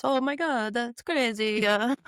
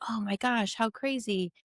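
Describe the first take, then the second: First: Mock Italian accent with a lilting "Oh my God". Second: Said in the usual way. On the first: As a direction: imitate an excited Italian, with "crazy-uh" at the end. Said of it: "in his Italian voice". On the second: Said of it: "And he's like".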